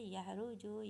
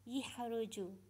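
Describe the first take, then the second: First: The first syllable has the vowel a. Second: The first syllable has the vowel i. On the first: This is the original standard form. "huruf ya ini asalnya baris atas ya" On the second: "dibaris ke bawah huruf ya-nya dia menjadi"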